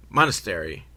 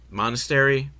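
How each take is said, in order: First: MONASTERY falling to a low finish; Monastery dropped low and final; settled statement. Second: MONASTERY lifted as a question; questioning tune. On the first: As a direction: say Monastery as a confirmed answer. Confirms the word to themselves. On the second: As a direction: say Monastery as if unsure of the word. Tries the word out, questioning. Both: Real, not acted.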